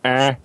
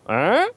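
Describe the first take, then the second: First: The pitch stays level or falls at the end. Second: The pitch rises at the end, like a question.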